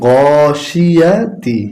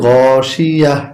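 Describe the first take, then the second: First: The word ends with a full 'ti' syllable. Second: The word ends at 'ya' without 'ti'. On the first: The reading continues without stopping. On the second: The reader stops at the end of the verse.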